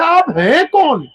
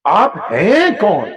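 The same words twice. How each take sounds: First: Higher, slower, insistent plea; pleading question. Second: Drawn-out, wondering who are you; slow puzzled question. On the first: The stranger, sent away, begs to know who he is. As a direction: lift آپ ہیں کون high and lean on کون, falling at the end. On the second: The stranger slowly asks his helper who he is. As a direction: ask آپ ہیں کون slowly, drawing out ہیں. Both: Retold or imitated.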